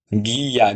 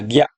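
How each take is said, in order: First: "গিয়া" drawn out as two beats, gi-ya; syllables apart. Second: "গিয়া" merged into one short beat, gya; blended syllable. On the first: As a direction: stretch "গিয়া" into separate gi and ya. ("গিয়া" ভেঙে টেনে, গি-ইয়া) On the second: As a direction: say "গিয়া" quickly joined as gya. ("গিয়া" জুড়ে ছোট করে, গ্যা) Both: Shown as a demonstration. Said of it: "আসবো যুক্ত বর্ণে".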